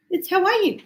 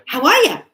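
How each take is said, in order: First: Higher, clearly worded "how are you"; spelled-out greeting. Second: Loud "how are ya" with "ya" run in; emphatic casual greeting. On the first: Greeting explained in full words. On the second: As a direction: imitate an insistent "how are ya". Ex rephrases greeting for her. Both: Retold or imitated.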